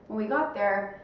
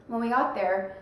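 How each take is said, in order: Both takes have the same delivery.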